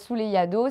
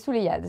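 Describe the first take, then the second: First: The final vowel is clearly pronounced. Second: The final vowel is left silent. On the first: The speaker calls it wrong. "C'est pas" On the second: The speaker calls it right. "on le prononce pas"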